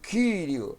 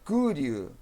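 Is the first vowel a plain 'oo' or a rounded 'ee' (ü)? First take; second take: rounded ee; plain oo. First: The first vowel is a rounded 'ee' sound. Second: The first vowel is a plain 'oo' sound. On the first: "como um U tremado, como do alemão ou do francês" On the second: "Tem alguns irmãos que pronunciam como U"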